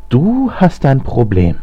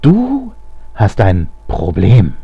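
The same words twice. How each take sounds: First: Drawn-out high mocking jeer on "Du"; mocking, slow and incredulous. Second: Very slow, word-by-word mockery; drawn-out sneering repeat, each part set apart; jeering. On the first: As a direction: scoff in disbelief, stretching "Du" up high. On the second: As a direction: scornfully spell it out, pausing after "Du". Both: A narrator's reading. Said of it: "höhnte Alexander".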